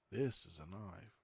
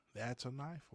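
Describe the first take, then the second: First: "This is a knife" slow, settling down on "knife"; remembered Dundee version. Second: "That's a knife" lifted higher, rising on "knife"; questioned version of quote. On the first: Giving the version he remembers, "This is a knife" slow and falling. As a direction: stretch "This is a knife" slowly, as the settled answer. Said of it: "which is the way he said it". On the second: Asking viewers which wording they remember, "That's a knife" with questioning rise. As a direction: offer "That's a knife" as a questioning option, pitch up. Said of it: "So how did he say it?".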